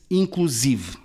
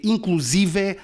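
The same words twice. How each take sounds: First: Inclusive stressed on the syllable si, said slowly; correct stress. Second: Inclusive with stress on the last syllable and an open final E, like an oxytone; wrong stress. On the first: Radio guest shows the right reading, inclusive stressed on si and said slowly. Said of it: "lê-se inclusive". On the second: Radio guest shows the wrong way to read the word, inclusive stressed on the last syllable. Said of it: "Não se lê inclusive". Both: Shown as a demonstration.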